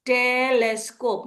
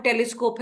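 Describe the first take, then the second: First: "टेलेस्कोप" slowly broken into टे-लेस-कोप; syllable by syllable. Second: Said in the usual way. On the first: Shown as a demonstration. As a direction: stretch each syllable of "टेलेस्कोप" separately. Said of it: "break करके जब पढ़ेगा". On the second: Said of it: "ये जोड़ के फिर वो finally".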